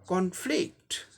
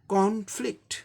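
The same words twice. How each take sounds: First: The stress is on the second syllable. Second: The stress is on the first syllable. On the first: It is used as a verb. "दूसरे पे जोर देना है" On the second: It is used as a noun. "First syllable पर stress है"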